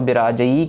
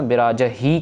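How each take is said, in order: First: The final syllable has no h sound. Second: The final syllable has an h sound. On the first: The speaker calls it wrong. "काफी जन इसको बिराजई कह देते हैं इड़ी के साथ" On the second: The speaker calls it right. "बिराज ही कहना है हो के साथ"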